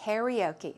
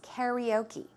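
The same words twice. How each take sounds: First: The word is pronounced with an American English accent. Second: The word is pronounced with an American English accent.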